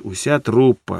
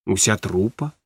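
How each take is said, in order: First: УСЯ ТРУПА stated with a falling end; confirming. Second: УСЯ ТРУПА asked with a rise at the end; quiet question, lifting the end of УСЯ ТРУПА. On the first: Wife answers husband about the show, confirming УСЯ ТРУПА with a falling tune. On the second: Husband asks wife about the show, questioning УСЯ ТРУПА with a rise. Asks whether whole troupe played. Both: Acted.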